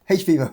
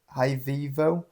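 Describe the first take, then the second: First: The first part is the letter name 'H'. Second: The first part sounds like the word 'high'.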